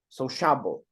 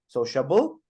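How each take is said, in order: First: The stress is on the second syllable. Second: The stress is on the last syllable. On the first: "That would be the second one" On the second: "Or the last"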